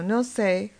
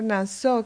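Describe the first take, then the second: First: The first vowel is an 'o' sound. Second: The first vowel is an 'a' sound. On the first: It means to forgive. "Puede ser pronunciada como no sé, y aquí significa perdonar" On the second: It means to lift. "la palabra Nasó, que significa levantar"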